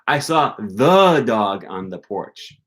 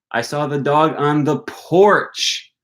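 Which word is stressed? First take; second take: first the; porch. First: The stress falls on the first the. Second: The stress falls on the word porch. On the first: It was a special, particular dog. "not just a dog. It was the dog" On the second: The dog was on the porch, not elsewhere. "I didn't see the dog on the patio"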